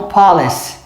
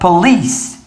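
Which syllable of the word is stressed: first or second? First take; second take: first; second. First: The stress is on the first syllable. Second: The stress is on the second syllable. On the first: The speaker calls it wrong. "eles falam police" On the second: The speaker calls it right. "a tônica está aqui, ó. ... A tônica é no meio"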